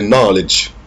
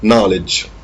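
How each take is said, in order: Both takes have the same delivery.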